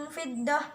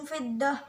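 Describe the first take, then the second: No difference in how they are said.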